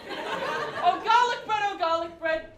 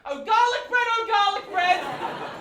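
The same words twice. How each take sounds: First: Higher, louder swooning ode; passionate cry. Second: High, loud swooning ode; passionate cry. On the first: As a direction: cry it out again with longing. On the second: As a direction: cry out to it like a lost lover. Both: Acted. Poet declaring love to garlic bread, hammed-up passionate cry.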